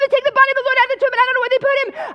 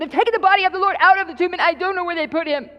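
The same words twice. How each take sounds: First: It is screamed out fast. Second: It is said more slowly.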